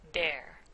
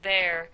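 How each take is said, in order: First: The word begins with a d sound. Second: The word begins with a th sound. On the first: "like the D sound" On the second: "instead of saying there"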